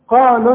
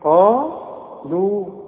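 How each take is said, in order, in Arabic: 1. تُحذف الحركة الأخيرة وتتصل بالكلمة التالية. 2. تُمد الحركة الأخيرة. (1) "انت شايف ان انا لغيت الواو، قالوا ما فيش مد عندي بقى" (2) "شوف مد طبيعي لا في زيادة ولا في نقص"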